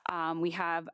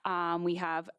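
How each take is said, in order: Both takes have the same delivery.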